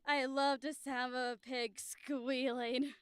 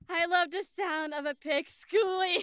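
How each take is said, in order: First: It is said in a clean, controlled way. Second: It is said loudly, excitedly, breaking into laughter.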